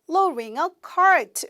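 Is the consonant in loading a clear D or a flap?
flap. The middle consonant is a soft flap, like L. "미국 발음은 ... 리을처럼 약간 돌려준다"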